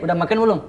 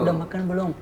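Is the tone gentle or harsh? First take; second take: harsh; gentle. First: It is said in a harsh, rough tone. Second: It is said in a gentle, polite tone. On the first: This person speaks bluntly and cannot be soft. "Kalau dia bukan begini" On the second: A typical worker speaking politely to an employer. "kalau yang kerja kan bicaranya begini"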